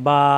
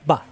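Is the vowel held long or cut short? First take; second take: long; short. First: The vowel is drawn out long. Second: The vowel is cut short quickly. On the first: "এখানে কিন্তু লম্বা করতে পারতেছি আমরা" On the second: "কোনো লম্বা করা যাবে না"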